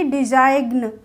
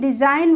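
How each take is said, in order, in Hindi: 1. g का उच्चारण होता है। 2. g का उच्चारण नहीं होता। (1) "ना कि डिजाइन। ऐसे तो नहीं बोलेंगे।" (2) "डिजाइन बोलेंगे"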